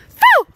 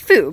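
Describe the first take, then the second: First: The word is shouted loudly. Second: The word is said quietly.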